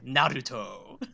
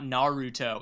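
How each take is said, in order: First: It is said with a harder, more Japanese-like sound. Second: It is said with a softer, Americanized pronunciation. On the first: This is the version insisted on as correct. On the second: This is the common version everyone uses.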